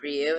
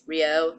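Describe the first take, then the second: First: The name is said as one syllable, ryoo. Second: The name is said as two syllables, ree-oh. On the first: The speaker calls it wrong. "not Ryu, and I've been saying Ryu" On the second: The speaker calls it right. "I'm saying it right because apparently it's Rio"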